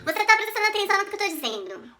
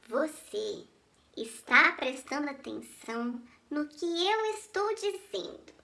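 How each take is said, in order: First: It is said at a fast pace. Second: It is said at a slow pace.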